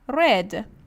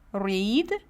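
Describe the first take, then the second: First: It is said with the past-tense pronunciation. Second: It is said with the present-tense pronunciation. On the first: It refers to the past. "the spelling is the same, but the pronunciation is different" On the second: It refers to now. "the spelling is the same, but the pronunciation is different"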